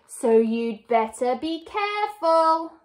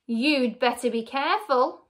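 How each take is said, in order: First: Higher, drawn-out gloating threat; cackled warning. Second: Put-on plain warning old wife; stern warning. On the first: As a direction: crow the warning like a cackling villainess. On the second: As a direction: warn him steadily. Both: A narrator's reading. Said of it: "cackled Missus Twit".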